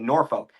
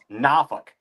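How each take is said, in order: First: Every letter is sounded as it is spelled. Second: It is not sounded the way it is spelled. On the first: The speaker calls it wrong. "we don't pronounce it Norfolk because it's N O R F O L K" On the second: The speaker calls it right. "No, it's Norfolk"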